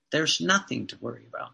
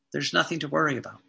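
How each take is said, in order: First: "There's nothing to worry about" slower, lower and soft; slow reassurance. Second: "There's nothing to worry about" said fast and soft; quick reassurance. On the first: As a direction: let the comfort sink in. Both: Real, not acted.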